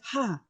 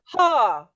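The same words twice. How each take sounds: First: The 'ha' is quiet and weak. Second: The 'ha' is loud and strong. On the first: The speaker calls it wrong. "I'm not very loud" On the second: The speaker calls it right. "I'm using my abdomen"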